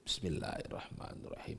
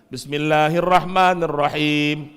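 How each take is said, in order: First: The phrase is recited quietly under the breath. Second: The phrase is recited aloud in a full voice. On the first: This follows the Hanbali practice. "Imam Hambali sir" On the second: This follows the Shafi'i practice. "Imam kita tadi jahar ya. Berarti Imam Syafi'i"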